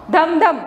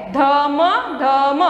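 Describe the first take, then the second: First: "धम धम" short, letters blended; all together. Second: "धम धम" with each letter sound drawn apart. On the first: Teacher models whole reading, "धम धम" all together. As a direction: say "धम धम" joined up. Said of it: "पूरा एक साथ में पढ़ना है". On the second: Teacher introduces a word to pupils, "धम धम" sounded out by letters. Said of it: "आप स्लोली पढ़ सकते हो". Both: Shown as a demonstration.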